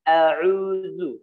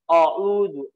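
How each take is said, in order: First: The first vowel is thin and open. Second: The first vowel is thick, rounded toward o. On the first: The speaker calls it right. "cara ngucapin hurufnya tetap ditipiskan" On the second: The speaker calls it wrong. "Tidak boleh"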